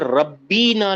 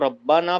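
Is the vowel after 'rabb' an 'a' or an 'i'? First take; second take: i; a. First: The vowel after the double b is i. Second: The vowel after the double b is a. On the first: The speaker calls it right. "ये रब्बी ना लिखा हुआ है" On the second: The speaker calls it wrong. "अगर इसको आप रब्बा ना पढ़ रहे हैं तो गलत है"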